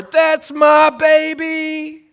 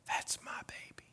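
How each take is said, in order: First: High, loud, slow holler; proud holler. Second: Soft breathy whisper; tender whisper. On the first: Parent hollering at a school award, proud holler. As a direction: point and holler with chest puffed out. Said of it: "and I holler". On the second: Dad at bedside of sleeping kids, tender whisper. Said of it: "and I whisper". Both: Retold or imitated.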